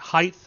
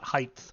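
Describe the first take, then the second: First: The word ends in a plain t sound. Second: The word ends in a th sound. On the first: The speaker calls it right. "it's pronounced height" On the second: The speaker calls it wrong. "It is not height"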